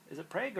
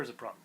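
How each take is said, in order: First: Prague with a long AY, like "prayg"; alternative pronunciation. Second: Prague with an open AH, like "prahg"; alternative pronunciation. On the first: Host checking a city name with co-host, Prague said as "prayg". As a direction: say Prague to rhyme with vague. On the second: Host checking a city name with co-host, Prague said as "prahg". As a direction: say Prague with the vowel of father. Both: Shown as a demonstration. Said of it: "is it Prague or is it Prague?".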